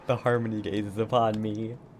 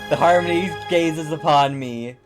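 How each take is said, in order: First: It is said quietly. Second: It is said loudly.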